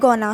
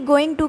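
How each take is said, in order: First: The words blend into one short reduced word. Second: Both words are said fully and separately.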